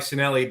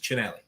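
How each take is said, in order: First: The name is said in an anglicized way. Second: The name is said the original Italian way. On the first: This is the everyday form the family uses. "we go by" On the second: This is the original form of the name. "correct pronunciation is"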